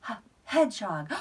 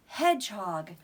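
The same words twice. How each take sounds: First: "H-, hedgehog" with the h sound split off first. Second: Said in the usual way. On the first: Shown as a demonstration. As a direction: break off the h, then say "hedgehog". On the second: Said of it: "He's a h".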